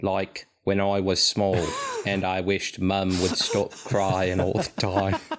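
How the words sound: It is said with lots of emotion and inflection.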